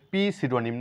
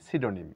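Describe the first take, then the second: First: A p sound is heard at the start. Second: No p sound is heard at the start. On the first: The speaker calls it wrong. "পি সিডোনিম না" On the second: The speaker calls it right. "এখানে পি এর কোনো sound নেই"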